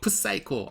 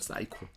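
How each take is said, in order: First: The word begins with a p sound. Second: The word begins with an s sound. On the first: The speaker calls it wrong. "저 사람은 너무 프사이코야 그러지 않잖아요" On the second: The speaker calls it right. "P 묵음이잖아요"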